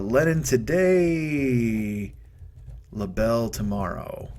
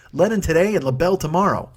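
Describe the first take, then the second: First: Drawn-out and slow, like writing it down; slow dictation. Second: Punchy title pitch. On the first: Jotting the show title down, said slowly. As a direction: spell it out slowly as you write. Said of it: "let me jot that down". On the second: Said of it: "That's gotta be the name of the show". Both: Shown as a demonstration.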